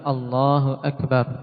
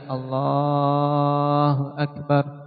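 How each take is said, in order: First: The vowel in Allah has normal length. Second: The vowel in Allah is drawn out excessively. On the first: The speaker calls it right. "lafaznya Allahu Akbar" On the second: The speaker calls it wrong. "memanjangkan lafaz Allah berlebihan"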